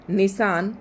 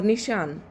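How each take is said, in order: First: निशान said with dental s. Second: निशान said with palatal श; palatal sha. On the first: Teacher showing the dental sound to students. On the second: Teacher contrasting the palatal sound for students. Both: Shown as a demonstration. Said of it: "उच्चारण आपको तालु से करना है".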